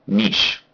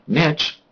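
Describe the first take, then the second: First: It is said with the British pronunciation. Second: It is said with the American pronunciation. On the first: "But the U K, they say niche" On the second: "I would say, as an American"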